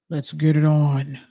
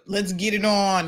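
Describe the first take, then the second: First: The voice is put on very deep. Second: The voice stays at a normal pitch.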